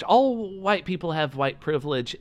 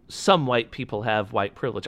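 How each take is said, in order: First: ALL stretched out and pitched higher; stress on ALL. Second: Said in the usual way. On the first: Real, not acted. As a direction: correct it by leaning long on "All". Corrects "some" to "all.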